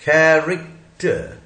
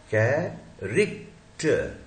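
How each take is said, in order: First: Said in the usual way. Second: "कैरेक्टर" slowly as कै... रेक... टर; syllable by syllable. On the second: Shown as a demonstration. Teacher breaks up the word for students, syllable by syllable. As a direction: separate the three parts of "कैरेक्टर", softer.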